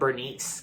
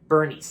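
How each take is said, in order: First: The name ends with an s sound. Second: The name ends with a z sound. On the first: The speaker calls it wrong. "I used to mispronounce Bernie's as like Bernice" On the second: The speaker calls it right. "the movies actually pronounced Weekend at Bernie's like"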